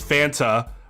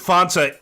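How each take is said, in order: First: The word does not rhyme with 'wanna'. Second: The word rhymes with 'wanna'. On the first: This is how everyone the speaker knows says it. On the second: This is how the commercial said it.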